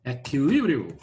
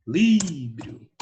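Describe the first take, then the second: First: Said in the usual way. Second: Equilíbrio said slowly, leaning on the LI syllable; stress on the tonic syllable. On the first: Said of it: "Não, aí não". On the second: Shown as a demonstration. Teacher pointing out the stressed syllable of Equilíbrio to the class. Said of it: "Aí é a sílaba tônica".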